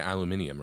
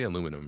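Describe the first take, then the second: First: It is said with a British pronunciation. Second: It is said with an American pronunciation. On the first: "that's how British people pronounce it" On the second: "we say aluminum"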